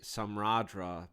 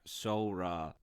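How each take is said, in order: First: Every written letter is sounded out. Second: Several written letters are left silent. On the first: The speaker calls it wrong. "I want to say Samradra because that's how it looks" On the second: The speaker calls it right. "but it is in fact Sora"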